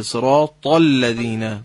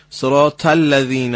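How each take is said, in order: First: صراط with a thick, throaty ص and ط, slow; heavy ص and ط. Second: صراط with a thin س-like ص and light ط; wrong light ص. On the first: Teacher gives the correct heavy صراط. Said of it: "تا". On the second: Teacher imitates the caller's wrong thin ص. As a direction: say صراط thinly, like سراط. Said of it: "این غلطه". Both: Shown as a demonstration.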